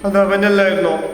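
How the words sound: It is said in a sad tone. "സങ്കടപ്പെട്ട് പറയുകയാണെങ്കിൽ"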